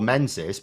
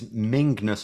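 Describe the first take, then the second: First: The name is said with a z sound. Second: The name is said with an ng sound. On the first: This is how the name looks when read. The speaker calls it wrong. "I would just call" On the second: This is the Scottish way to say the name. The speaker calls it right. "but it's Mingness or something like that"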